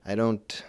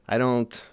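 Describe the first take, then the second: No difference in how they are said.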